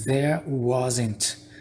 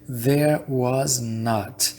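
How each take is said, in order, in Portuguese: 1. O not é contraído junto com was, como uma só palavra. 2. A palavra not é falada completa e separadamente. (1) "eles abreviam... eles contraem"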